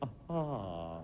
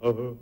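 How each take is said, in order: First: A graceful, English-style 'aga'. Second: A dull, blunt Russian-style 'aga'.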